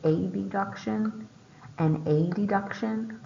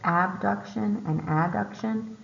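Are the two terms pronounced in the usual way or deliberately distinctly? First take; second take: distinct; usual. First: Both terms are altered to sound clearly different. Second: Both terms are said in the usual way.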